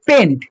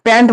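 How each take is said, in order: First: পেন্ট with a short closed e, as in pent; correct pronunciation. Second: প্যান্ট with an open a, like English pants; the joking wrong version, প্যান্ট as in trousers; wrong pronunciation. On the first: Teacher naming the five-carbon prefix পেন্ট, with a clear e sound. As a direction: say পেন্ট crisply, e as in pen. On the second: Teacher teasing students not to say প্যান্ট, a playful mock of the mistake. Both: Shown as a demonstration. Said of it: "প্যান্ট বলবি না কেউ".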